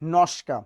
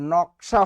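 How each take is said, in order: First: The s sound comes before the k sound. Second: The k sound comes before the s sound. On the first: "তালবস্যা মাঝখানে আসবে, আর কটা শেষে চলে যাবে" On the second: "নকশা হয়ে গেল কি নস্কা"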